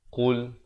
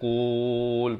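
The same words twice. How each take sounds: First: The word is said short and clipped. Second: The word is drawn out long. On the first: The speaker calls it right. "Bunyi gitu saja" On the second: The speaker calls it wrong. "Panjang kan tak mau"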